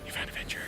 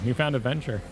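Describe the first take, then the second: First: It is spoken in a whisper. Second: It is spoken in a normal voice.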